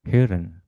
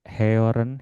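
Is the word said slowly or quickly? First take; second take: quickly; slowly. First: The word is said quickly in one go. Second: The word is said slowly and drawn out. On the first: "Tapi harusnya sih cepat ya" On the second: "Kalau baru belajar mau pelan-pelan bacanya"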